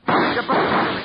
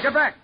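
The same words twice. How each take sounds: First: Higher, louder sharp warning; urgent warning shout. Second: Higher yet, clipped urgent cry; a last sharp command; sharper warning shout. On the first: Detective warns his partner under fire, shouting. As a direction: push them back fast. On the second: Detective yells the warning again under fire. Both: Acted.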